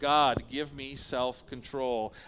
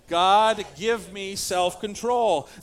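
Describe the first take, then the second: First: It is said plainly, without strong feeling. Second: It is said with strong, earnest conviction.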